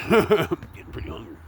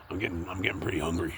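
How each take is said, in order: First: Laughing. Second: Said in the usual way. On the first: Real, not acted. Repeats line with a laugh. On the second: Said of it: "repeats it laughing".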